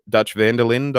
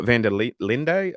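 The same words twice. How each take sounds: First: Said in the usual way. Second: Vanderlinde with a final "day" sound; alternative pronunciation. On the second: Shown as a demonstration. Streamer puzzling over a viewer's name, Vanderlinde said with final E sounded. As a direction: sound the E at the end of Vanderlinde, slowly. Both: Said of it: "there's no accent on the E".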